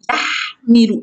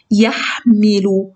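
First: Said in the usual way. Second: Stretched out, syllable by syllable; slow read-aloud. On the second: Shown as a demonstration. Teacher to children, sounding out يحمل slowly. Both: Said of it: "تنطق بصوت عالي".

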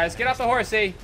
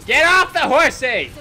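First: Said in the usual way. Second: High, loud playful order; shouted command. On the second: Real, not acted. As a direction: call it out forcefully. Repeats it as an order.

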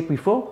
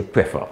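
First: "prefer" said as "pree-fo"; long ee in the first syllable of "prefer"; Grenadian pronunciation. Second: "prefer" said as "preh-fuh"; short e in the first syllable of "prefer"; Vincentian pronunciation. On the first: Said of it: "Grenadian say prefer". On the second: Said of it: "Vincentian say prefer". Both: Shown as a demonstration.

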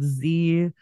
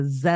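First: Said in the usual way. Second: Z pronounced "zed"; Canadian "zed" for Z. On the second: Shown as a demonstration. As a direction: say the letter Z as zed. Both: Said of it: "Z instead of Z".

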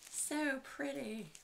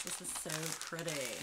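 First: Higher, slow drawn-out so pretty; delighted gush. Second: Said in the usual way. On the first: Real, not acted. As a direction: swoon over it, stretching each word.

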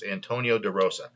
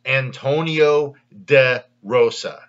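First: Said in the usual way. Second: Antonio De Rosa said slowly, word by word; name sounded out. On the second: Shown as a demonstration. Host telling viewers what to Google, name sounded out slowly. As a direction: space out Antonio, De, Rosa clearly for a search. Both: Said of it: "exactly how it sounds".

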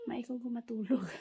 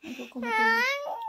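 First: Said in the usual way. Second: High, loud whining cry; mock whine. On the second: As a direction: whine it like a sleepy child. Mock whine repeating line. (mataas at malakas na kunwaring ungot)

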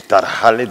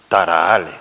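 First: "tarajales" with a scraped J; "tarajales" with a hard back-of-throat J; standard J. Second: "tarahales" with a breathed H, almost "taraale"; "tarahales" with the middle consonant nearly gone; Canarian aspirated J. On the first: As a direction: sound the J of "tarajales" fully. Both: Shown as a demonstration. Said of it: "la aspiración de la letra J".

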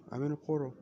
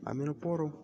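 First: Robotic altered voice. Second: Said in the usual way. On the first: Real, not acted. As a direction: sound like a robot through the portal. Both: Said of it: "Why do I sound like a robot?".

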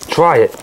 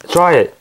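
No difference in how they are said.

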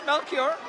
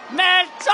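First: "Melchior" said in English, MEL-kee-or; English "Melchior" with a k sound and three syllables; English pronunciation. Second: "Melchor" said the Spanish way, no i, Mel-CHOR; Spanish "Melchor" with a clear Spanish ch; Spanish pronunciation. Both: Shown as a demonstration. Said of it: "Well, it's in English".

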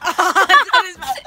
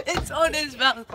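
First: Laughing through the words; cracking up while saying it. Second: Said in the usual way. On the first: Real, not acted. Cream lands on his mouth.

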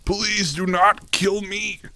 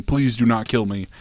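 First: High, slow, drawn-out begging; whiny plea. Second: Said in the usual way. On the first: Acted. Pleading with the game enemy, high slow whine. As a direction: stretch the plea out like a whining child.

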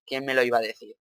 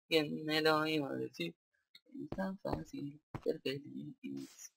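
First: Said in the usual way. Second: Slow, soft, lingering delivery; dreamy drawn-out echo. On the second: Pretend. Player savouring his first night's sleep in the series, dreamy and slow. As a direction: stretch it out softly, savouring each word.

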